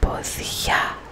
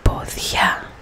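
First: The stress is on the last syllable. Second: The stress is on the last syllable.

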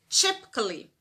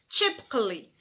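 First: The a before -lly is silent. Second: The same.

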